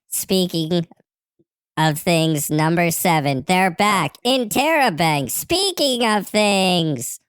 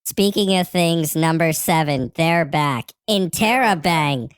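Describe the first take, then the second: First: Building exclamation. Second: Said in the usual way. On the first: Acted. Reading a repeated show slogan from a message, building exclamation. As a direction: read with growing emphasis, pitch climbing.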